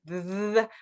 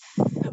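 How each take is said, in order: First: The th sound is voiced, with buzzing vibration. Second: The th sound is voiceless, only air. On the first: "where you put the the vibration between your tongue and your teeth" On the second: "where you put the air in between your tongue and your teeth"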